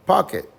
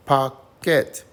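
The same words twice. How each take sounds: First: Said in the usual way. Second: Pocket in two separate beats, pock, ket; higher, punched syllables in Pocket with a gap between; split into syllables. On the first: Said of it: "And the word is pocket". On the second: Shown as a demonstration. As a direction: break Pocket into POCK... KET, both stressed. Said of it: "let's break it up".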